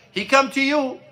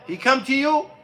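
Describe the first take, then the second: No difference in how they are said.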